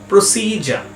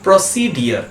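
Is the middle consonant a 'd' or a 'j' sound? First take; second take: j; d. First: The middle has a 'j' sound before the ending. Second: The middle has a 'd' sound before the ending. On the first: The speaker calls it right. "কিন্তু এই ওয়ার্ডটার ঠিক উচ্চারণ হয় প্রসিজা" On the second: The speaker calls it wrong. "এই ওয়ার্ডটা আমরা সবাই উচ্চারণ করি প্রসিডিয়ার বলে"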